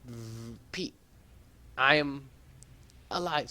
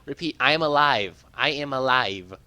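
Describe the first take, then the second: First: A distant garbled transmission; faint radio voice. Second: Said in the usual way. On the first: Acted. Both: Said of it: "So she's probably saying".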